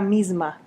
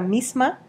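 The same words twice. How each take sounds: First: The consonant before the m is a buzzing z. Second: The consonant before the m is a hissing s.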